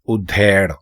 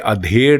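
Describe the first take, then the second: First: The word begins with a 'u' vowel. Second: The word begins with an 'a' vowel. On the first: The speaker calls it right. "ये है उधेड़" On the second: The speaker calls it wrong. "ये अधेड़ या अधीड़ नहीं है"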